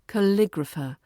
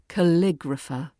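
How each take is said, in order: First: The stress is on the second syllable, lig. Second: The stress is on the second syllable, lig.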